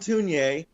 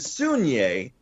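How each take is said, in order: First: The name begins with a T sound. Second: The name begins with an S sound. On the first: This was the accepted pronunciation at first. "we were all good on Tunier" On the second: This was the pronunciation used from last year. "they just cut the like the T out, they put an S"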